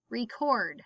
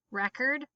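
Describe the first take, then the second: First: Record as ree-CORD, falling; stress on second syllable. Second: Record as REK-erd; stress on first syllable. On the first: Teacher reading word list aloud, stress on second syllable. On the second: Teacher reading word list aloud, stress on first syllable. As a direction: hit the Rec in Record. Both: Shown as a demonstration. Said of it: "both of the different pronunciations".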